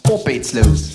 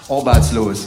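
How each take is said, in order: First: It is said in a Saxon accent. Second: The A sounds like O, not Saxon.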